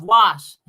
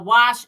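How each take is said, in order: First: Said in the usual way. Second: Wash said as "warsh"; husband's dialect wash. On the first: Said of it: "instead of wash". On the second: Retold or imitated. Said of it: "wash instead of wash".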